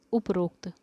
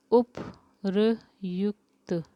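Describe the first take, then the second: First: उपरोक्त said plainly as the misspelled form; wrong form read out. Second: उपरयुक्त drawn out very slowly, syllable by syllable; slow correct form. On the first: Teacher reading out the wrong spelling उपरोक्त. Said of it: "तो उपरोक्त किस तरह से लिखा है". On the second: Teacher slowly showing students the correct उपरयुक्त. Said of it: "अच्छा इस तरह से". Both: Shown as a demonstration.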